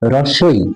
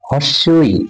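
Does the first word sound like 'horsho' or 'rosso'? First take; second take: rosso; horsho. First: The first word sounds like 'rosso'. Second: The first word sounds like 'horsho'. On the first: The speaker calls it right. "এর উচ্চারণটা হবে আসলে রস্য ই।" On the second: The speaker calls it wrong. "অনেকেই বলবেন হর্ষ ই with confidence"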